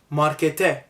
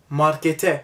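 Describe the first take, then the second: No difference in how they are said.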